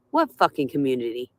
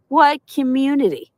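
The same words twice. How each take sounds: First: Low bitter mutter. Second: Scoffing disbelief. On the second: Ranting at viewers, scoffing high with disbelief. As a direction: pitch jumps high in mock disbelief. Incredulous repeat of her words. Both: Real, not acted.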